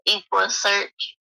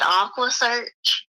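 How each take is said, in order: First: The first word begins with an 'eck' sound. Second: The first word begins with an 'ack' sound. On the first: The speaker calls it right. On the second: The speaker calls it wrong.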